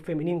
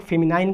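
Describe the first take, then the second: First: "फेमिनिन" with final syllable "nin"; alternative pronunciation. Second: "फेमिनाइन" with final syllable like "nine"; alternative pronunciation. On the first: Teacher repeats for students what others say, "फेमिनिन" ending in "nin". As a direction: end "फेमिनिन" on an i-plus-n sound, no glide. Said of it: "कोई लोग फेमिनिन कहता है". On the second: Teacher repeats for students what some say, "फेमिनाइन" rhyming with "line". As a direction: end "फेमिनाइन" on an eye-plus-n sound. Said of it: "इसे कोई लोग फेमिनाइन कहता है". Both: Shown as a demonstration.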